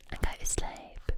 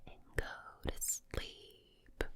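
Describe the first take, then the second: First: Lulling Essex-accented ASMR whisper. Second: Slow, drawn-out Southern US whisper; whispered Southern drawl. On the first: ASMR host lulling the listener to sleep, whispered Essex accent. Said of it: "just imagine this accent". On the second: ASMR host lulling the listener to sleep, slow whispered Southern drawl. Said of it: "this sort of drawl". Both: Shown as a demonstration.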